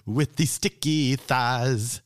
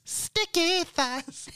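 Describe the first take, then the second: First: Said in the usual way. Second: High, slow hammed-up wail; mock wail. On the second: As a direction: stretch it out in a high mock cry. Repeated, wailed high.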